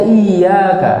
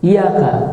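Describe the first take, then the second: First: The y sound is held long, doubled. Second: The y sound is short, not doubled. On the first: Only you are worshipped. The speaker calls it right. "harusnya iyyaka" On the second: A warning: beware. The speaker calls it wrong. "tidak dengan tasdid"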